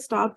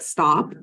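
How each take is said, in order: First: It is said in a mild, casual tone. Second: It is said in a firm, serious tone. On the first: The child can ignore it and keep playing. "when we're like, hey, stop" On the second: The parent really needs the child to stop now. "when you change the tone of voice, like stop"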